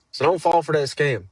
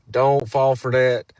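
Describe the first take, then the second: First: Said in the usual way. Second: "Don't" pressed hard, slower and louder; slow stress on don't. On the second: Real, not acted. Creator warning viewers against scams, stressing "Don't". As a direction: lean on "Don't" and slow the line down.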